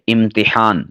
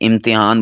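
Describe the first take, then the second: First: A clear 'i' follows the t, with audible h. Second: The vowel after the t is not a clear 'i'. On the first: The speaker calls it right. "ता के नीचे कसरा और हा को ज़ाहिर करना है" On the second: The speaker calls it wrong. "हम इसे इम्तिहान बोल देते हैं, ... ये गलत है।"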